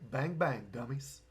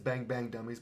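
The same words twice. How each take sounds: First: It is said in a Southern Kentucky accent. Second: It is said in a plain, neutral accent. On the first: "it's going to come out more like" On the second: "where he says"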